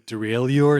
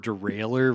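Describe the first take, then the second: First: The ending sounds French, like '-lleur'. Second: The ending sounds English, like 'railer'. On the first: The speaker calls it wrong. "spelling it the French way" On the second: The speaker calls it right. "I would vote for derailer"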